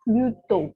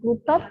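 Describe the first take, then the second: First: The final t sound is silent. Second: The final t sound is pronounced. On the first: The speaker calls it right. "T-nya tidak dilafalkan" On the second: The speaker calls it wrong. "bukan Pluto"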